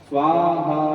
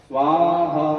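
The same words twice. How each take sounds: No difference in how they are said.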